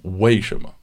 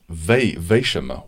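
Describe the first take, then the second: First: The first word begins with a W sound. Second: The first word begins with a V sound. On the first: "Like I thought it was" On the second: "with a V"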